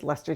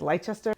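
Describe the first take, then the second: First: The word is pronounced in a shorter, contracted form. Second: The word is pronounced letter by letter as spelled. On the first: The speaker calls it right. "That's how you say it" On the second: The speaker calls it wrong. "looks like it's Leicester"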